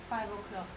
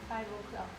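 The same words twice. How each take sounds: No difference in how they are said.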